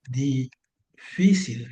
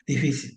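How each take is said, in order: First: Difícil said very slowly, stress on FÍ; difícil stretched out slowly to show the tilde; slow syllable-by-syllable. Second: Said in the usual way. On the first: Shown as a demonstration. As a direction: break difícil into syllables, hitting FÍ. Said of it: "aquí está la tilde". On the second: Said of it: "yo pongo la palabra así".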